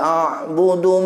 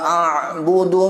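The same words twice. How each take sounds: First: The ain sound is relaxed and ordinary. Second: The ain sound is forced and overly heavy. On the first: The speaker calls it right. "Jadi biasa aja" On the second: The speaker calls it wrong. "Jangan gitu. Itu kulfah namanya. Membuat terlampau berat ya"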